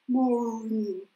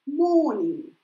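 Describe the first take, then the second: First: The R after the vowel is pronounced. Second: The R is silent and the vowel is long. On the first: "про это американское, которое произносится" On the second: "вы его вообще не произносите"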